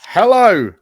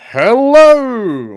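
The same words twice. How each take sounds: First: It is said at a quieter level. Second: It is said very loudly.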